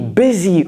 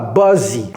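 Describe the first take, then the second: First: The first vowel sounds like 'bizzy'. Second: The first vowel sounds like 'buzzy'. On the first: The speaker calls it right. "busy, busy" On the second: The speaker calls it wrong. "c'est pas buzzy"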